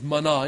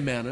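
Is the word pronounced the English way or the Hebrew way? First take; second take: Hebrew; English. First: The word has a Hebrew-style pronunciation. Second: The word has an English-style pronunciation. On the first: "The Hebrew pronunciation is manna" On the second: "We say manna"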